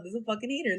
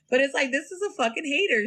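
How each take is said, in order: First: Softer, settled restatement of "hater"; same line with "hater" falling soft; softer repeat. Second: Higher, punchy call-out of "hater"; first pass at "hater", said up high; emphatic verdict. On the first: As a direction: let "hater" drop, half to herself. Repeating her verdict, then softer. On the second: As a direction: slam down the word "hater" as a verdict. Repeating her verdict, first emphatic. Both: Real, not acted.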